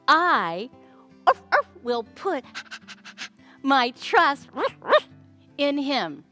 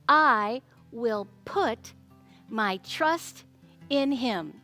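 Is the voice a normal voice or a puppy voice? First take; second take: puppy voice; normal. First: It is said in a playful puppy voice. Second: It is said in a normal speaking voice.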